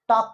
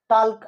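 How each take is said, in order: First: The L sound is left silent in the word. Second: The L sound is pronounced in the word. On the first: The speaker calls it right. "हा एलचा जो pronounce आहे तो silent आहे" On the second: The speaker calls it wrong. "टॉक असं नाही म्हणत"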